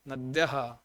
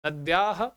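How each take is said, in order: First: "नद्यः" with short a before the echoed h; correct short vowel. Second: "नद्याः" with a long aa after dy; wrong long vowel. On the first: Teacher giving students the correct plural, "नद्यः" with short a. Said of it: "नदी का नद्यः शब्द बहुवचन का रूप". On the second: Teacher showing students the mistaken plural, "नद्याः" with long aa. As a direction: stretch the vowel in "नद्याः", ending on a rise. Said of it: "नद्याः गलत है". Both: Shown as a demonstration.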